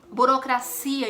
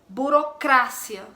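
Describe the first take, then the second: First: The stress is on the syllable 'cia'. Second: The stress is on the syllable 'cra'. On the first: "a sílaba tônica ficaria no cia" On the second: "sílaba tônica no cra"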